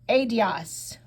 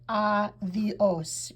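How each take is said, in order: First: The d is pronounced hard. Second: The d is soft, almost a th sound. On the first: The speaker calls it wrong. "We don't say adios" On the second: The speaker calls it right. "a D is a soft, almost a T H sound"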